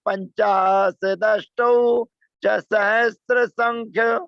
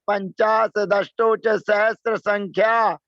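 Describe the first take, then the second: First: The last word ends in a short vowel. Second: The last word ends in a long vowel. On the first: The speaker calls it right. "ऐसे धीरे से बोलना चाहिए।" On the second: The speaker calls it wrong. "संख्या बोलेंगे वो उच्चारण गलत होता है।"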